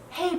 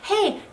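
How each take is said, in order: First: It is said softly, as if continuing. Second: It is said firmly, as a full stop. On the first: "you can say it really softly like a comma" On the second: "You can say it like a period"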